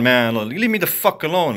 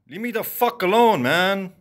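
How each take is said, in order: First: Said in the usual way. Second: Raised, pitched-up frustrated plea; exasperated shout of leave me alone; angry outburst. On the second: Real, not acted. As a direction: snap it out, fed up with them. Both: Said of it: "an angry rant".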